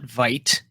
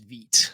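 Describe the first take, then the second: First: The word is pronounced the English way. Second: The word is pronounced the French way. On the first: The speaker calls it wrong. "so it's not Vite" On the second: The speaker calls it right. "French French pronunciation of it"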